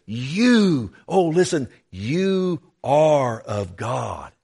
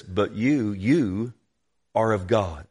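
First: YOU high and drawn out, then slow "you are of God"; excited, emphatic. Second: Said in the usual way. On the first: Acted. John urging believers to hear him, excited emphasis on YOU. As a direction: stretch each YOU to get it across. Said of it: "He's excited".

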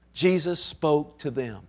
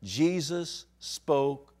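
First: Jesus spoke to them said slowly, Jesus stressed. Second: Jesus spoke said very slowly with a long pause; stress on Jesus spoke. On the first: Preacher repeating the key words slowly for the congregation. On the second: Preacher drawing slow weight onto the words "Jesus spoke". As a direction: drag out Jesus spoke, weighing each word. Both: Shown as a demonstration. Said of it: "these three words".

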